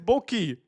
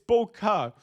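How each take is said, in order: First: The word ends with an 'ee' sound. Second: The word ends with an 'ah' sound. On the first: The speaker calls it wrong. "nobody says boki" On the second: The speaker calls it right. "It's boka"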